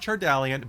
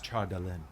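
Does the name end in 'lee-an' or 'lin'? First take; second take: lee-an; lin. First: The name ends with a drawn-out 'lee-an'. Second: The name ends with a short, clipped 'lin'. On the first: This is how common people say the name. "the common people pronounce it Chardalian" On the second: This is how the name is said in Elvish. "in Elvish it's Chardalin"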